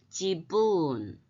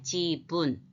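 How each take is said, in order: First: The word is said in three even beats. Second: The word is said in two even beats. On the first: The speaker calls it right. "이게 아니고 지분. ... 이렇게 읽어야 됩니다" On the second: The speaker calls it wrong. "우리나라 건 어때요? 두 글자잖아요"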